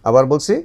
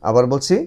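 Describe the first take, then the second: The two takes are said the same way.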